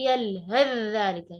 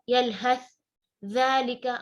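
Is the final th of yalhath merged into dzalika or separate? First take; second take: merged; separate. First: The th merges into a doubled dh sound. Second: The th sound is pronounced separately before dzalika. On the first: The speaker calls it right. "tapi yalhath dzalika... Yang terdengar adalah suara harf dzal yang bertasydid" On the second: The speaker calls it wrong. "Kita nggak baca yalhath dzalika, enggak"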